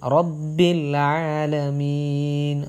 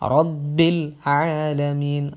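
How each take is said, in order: The two takes are said the same way.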